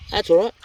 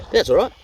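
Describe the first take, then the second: First: Light, high, easy; same high lift, rising at the end; high repeated reassurance. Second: Bright high self-reassurance, a little louder; said up high to shrug it off; high reassuring. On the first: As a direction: brush it off again, up high. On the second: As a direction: cheer yourself up after a slip. Reassuring self after mistake. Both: Real, not acted.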